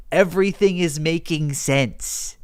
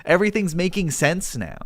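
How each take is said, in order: First: Slowed down for emphasis; measured, stretched-out repeat; slow realisation. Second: Said in the usual way. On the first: Real, not acted. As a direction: spell out the realisation slowly. Repeats realisation slowly for effect.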